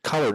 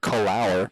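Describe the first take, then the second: First: The second syllable is a short, weak 'er'. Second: The second syllable sounds like the word 'hour'. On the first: The speaker calls it right. "you should pronounce it color" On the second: The speaker calls it wrong. "not col hour"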